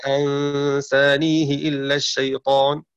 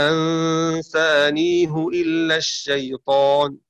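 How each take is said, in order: First: أنسانيه with a kasra on the ha, said slowly as ansānīhi; slow recitation of أنسانيه with the ha voweled i; Shu'ba's reading. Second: أنسانيه with a damma on the ha, said slowly as ansānīhu; slow recitation of أنسانيه with the ha voweled u; Hafs's reading. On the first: Teacher recites Shu'ba's reading for students, slow أنسانيه with kasra on ha. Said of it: "قرأ شعبة بكسر الهاء". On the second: Teacher recites Hafs's reading for students, slow أنسانيه with damma on ha. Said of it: "قرأ حفص بضم كسر الهاء". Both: Shown as a demonstration.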